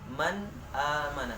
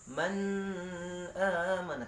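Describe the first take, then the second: First: The n is clear with no nasal hum. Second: The n is held with a nasal hum. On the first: The speaker calls it right. "harus dibaca dengan jelas, jelas nunnya, jelas hamzahnya" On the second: The speaker calls it wrong. "tidak boleh didengungkan. Atau baca gini"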